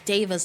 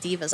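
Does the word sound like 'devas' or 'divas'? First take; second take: devas; divas. First: The word is said like 'devas'. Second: The word is said like 'divas'. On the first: The speaker calls it right. "it's Devas" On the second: The speaker calls it wrong. "not Divas. I've been calling them Divas"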